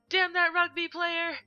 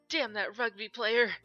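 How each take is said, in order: First: It is yelled loudly. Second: It is mumbled quietly.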